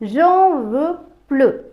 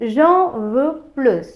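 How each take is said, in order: First: The final s of plus is silent. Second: The final s of plus is pronounced. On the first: The speaker wants no more. "எனக்கு இனி தேவை இல்லை" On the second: The speaker wants more. "எனக்கு கூடுதலாக வேண்டும்"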